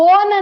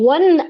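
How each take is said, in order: First: The vowel is a long 'oh' sound. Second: The vowel is a short 'uh' sound. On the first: The speaker calls it wrong. "ಓನ್ ಅಂತ ಹೇಳಿ ಓದ್ತೀರ, ಓದಬಾರದು" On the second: The speaker calls it right. "ಒನ್ ಅನ್ನೋದೇ ಸರಿಯಾದಂಥ ಉಚ್ಚಾರಣೆ"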